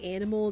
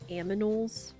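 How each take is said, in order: First: The N sound comes before the M sound. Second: The M sound comes before the N sound. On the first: "instead of saying animals" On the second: "reversing the M and the N in the word"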